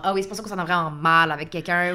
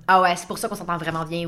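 First: Lower, resigned "Ah oui" epiphany; rueful realization. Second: Lower, knowing "Ah ouais" epiphany; self-satisfied realization. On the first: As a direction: voice a rueful aha. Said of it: "ou genre". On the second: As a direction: voice a smug little aha. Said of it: "puis dire comme". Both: Retold or imitated.

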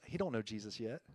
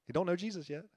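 First: Dropped low and soft, letting it sink in; hushed repeat. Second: Said in the usual way. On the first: Real, not acted. Pastor softly tells the congregation about his neighbor, hushed. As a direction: say it quietly, almost to himself. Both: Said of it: "Guess what?".

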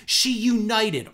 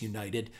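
First: "united" drawn out high and emphatic; mock-grand, higher weight on "united"; all-caps stress on united. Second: Said in the usual way. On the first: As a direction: slowly proclaim "united" as if in capitals. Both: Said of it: "all in caps, united".

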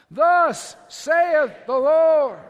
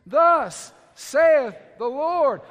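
First: Thunderous wrathful prophet, slow and higher; Old Testament prophet. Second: Drawn out, loud, each word weighed; slow loud proclamation. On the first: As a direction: boom it out like a prophet. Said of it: "say it like a prophet now, an Old Testament prophet". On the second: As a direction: call it out slowly with weight. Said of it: "Say it with me". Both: Shown as a demonstration.

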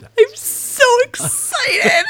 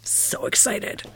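First: High squealing shout with laughter; excited squeal. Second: Soft breathy whisper. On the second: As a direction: whisper it to yourself. Whispered echo of her squeal. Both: Real, not acted.

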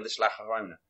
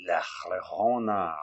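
First: Said in the usual way. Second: "La Llorona" drawn out slowly after a teasing pause; dramatic pause before La Llorona. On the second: Retold or imitated. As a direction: hold the beat, then say "La Llorona" slow and ominous. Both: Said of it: "wait for it".

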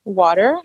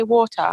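First: WATER in a put-on American accent; fake American accent. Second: WATER in an English accent; British accent. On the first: Oil seller explaining room sprays, "water" in fake American accent. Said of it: "that was my fake American accent". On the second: Seller playfully correcting herself for English caller, British "water". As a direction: say "water" the British way, crisp t and no final r. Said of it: "or should I say water?". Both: Shown as a demonstration.

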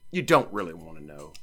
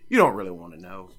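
First: "don't" leaned on, in a lowered voice; low, deliberate repeat, weight on "don't"; stress on DON'T. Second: Said in the usual way. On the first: Real, not acted. Host warning listeners off song explanations, stressing "don't".

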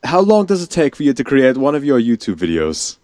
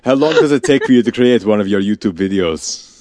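First: Put-on a shaky try at a British accent, drifting Russian; British accent that slips toward Russian; attempted British accent. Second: Put-on a light Russian accent on the question; Russian accent, half-hearted; Russian-ish accent. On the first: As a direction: ask it in a British accent, badly. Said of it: "in a British accent". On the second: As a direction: ask it in a mock Russian accent. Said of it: "more Russian than anything else".

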